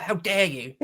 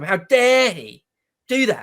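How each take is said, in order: First: Tossed-off, quieter mock outrage; mocking cliché. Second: Sincere outrage. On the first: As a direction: say it as the tired catchphrase, half-joking. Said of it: "It's almost a joke". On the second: Real, not acted. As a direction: lean on dare, dead serious. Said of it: "But I mean it absolutely and literally this time".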